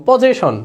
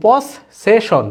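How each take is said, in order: First: Said in the usual way. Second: পসেশন said very slowly, pos and session apart; slow teaching read of পসেশন, double s held; slow syllable split. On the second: Shown as a demonstration. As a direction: split পসেশন into its parts, dragging it out. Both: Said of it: "দেখো পসেশন".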